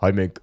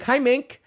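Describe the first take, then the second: First: Hi said lower, deep; low greeting. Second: Hi much higher, chirpy; high greeting. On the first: Streamer greeting viewer Mink again, lower. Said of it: "repeated greeting, low take". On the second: Streamer greeting viewer Mink, high squeak. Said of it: "repeated greeting to viewer Mink". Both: Shown as a demonstration.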